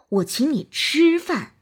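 The stress is on the word 吃. "突出吃"

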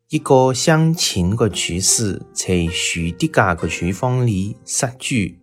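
Key consonants sound like j, q, x. This is the older way of speaking the dialect. "用老派南昌话读作"

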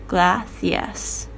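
The c is said with a lisp. "通常是发这个咬舌头的，轻轻咬舌头的这个声音"

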